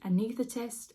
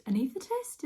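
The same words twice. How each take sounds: First: Said in the usual way. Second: ANAESTHETIST said higher, rising like a question; unsure questioning. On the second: Real, not acted. New mother checking a medical word, ANAESTHETIST as an unsure question. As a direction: query the word ANAESTHETIST with a raised, rising pitch. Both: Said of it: "Is that the word for it?".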